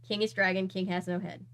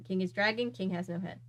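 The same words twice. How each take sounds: The two takes are said the same way.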